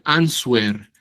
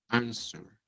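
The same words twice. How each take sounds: First: A 'w' sound is heard after the 's'. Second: No 'w' sound is heard after the 's'. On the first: The speaker calls it wrong. "Escucho que hay personas que dicen answer" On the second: The speaker calls it right. "No suena la U"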